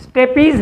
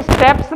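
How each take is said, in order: First: स्टेपीज with a long "ee" before the final z; correct reading. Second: स्टेप्स read like English "steps", no vowel before the final s; wrong reading. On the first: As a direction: sound out स्टेपीज as "ste-peez". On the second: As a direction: misread it as स्टेप्स, ending in a "ps" cluster. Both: Shown as a demonstration. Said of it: "ये स्टेप्स नहीं पढ़ना इसको".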